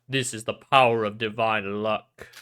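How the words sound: It is said in a put-on Mikado voice.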